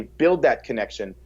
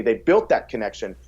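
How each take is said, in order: First: Said in the usual way. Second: Built said as the past tense, correcting build; corrected to built. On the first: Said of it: "excuse me, they built that connection". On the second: Real, not acted. Coach correcting his own word to built while talking. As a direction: land clearly on built to fix the slip. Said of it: "excuse me".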